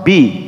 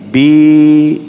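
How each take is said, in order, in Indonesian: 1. Vokalnya diucapkan sebentar. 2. Vokalnya dipanjangkan. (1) "Ba berharokat kasroh bi" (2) "jadi panjang"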